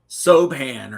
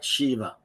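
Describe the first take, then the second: First: The name begins with a plain 's' sound. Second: The name begins with an 'sh' sound. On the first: This is how the spelling suggests it is said. The speaker calls it wrong. "So you think it's like Sobhan" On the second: This is how Irish speakers actually say it. The speaker calls it right. "but they pronounce it like Shiva"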